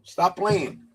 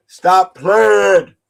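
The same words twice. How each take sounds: First: Said in the usual way. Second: Louder second time, pressing it; a firmer repeat of stop playing; louder insistent. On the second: Real, not acted. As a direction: push it harder, more insistent.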